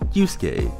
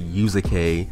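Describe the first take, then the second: First: The u after the s is dropped. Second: The u after the s is fully pronounced. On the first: The speaker calls it right. "you say Yusuke" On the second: The speaker calls it wrong. "you don't say Yusuke"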